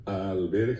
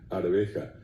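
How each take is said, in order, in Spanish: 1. La primera sílaba termina en sonido l. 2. La primera sílaba termina en sonido r. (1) "alberja va a decir normalmente la gente" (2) "exactamente, por allí viene"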